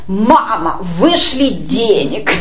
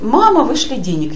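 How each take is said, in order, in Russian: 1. Говорится резким, требовательным тоном. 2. Говорится спокойным, мягким тоном. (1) "Нет же, он написал" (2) "Нет бы просто написать"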